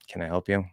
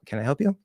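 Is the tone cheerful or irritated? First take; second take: irritated; cheerful. First: The voice sounds bothered and irritated. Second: The voice sounds bright and cheerful. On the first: The speaker does not really want to help. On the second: The speaker is happy to help.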